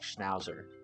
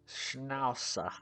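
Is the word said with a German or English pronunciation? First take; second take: English; German. First: It is said with an English pronunciation. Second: It is said with an attempted German pronunciation. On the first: "I just want to keep saying it like Schnauzer" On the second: "I don't think I sound very German"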